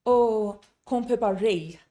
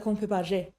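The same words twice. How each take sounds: First: Rei ending in a drawn ay diphthong; learner's error, rei sliding from e to i; mistaken gliding ending. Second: Je with one clean e, no glide; crisp pure ending. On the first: Retold or imitated. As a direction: glide the final vowel of rei. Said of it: "So they'll say". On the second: Shown as a demonstration. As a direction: end on a steady pure vowel in je. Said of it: "instead of".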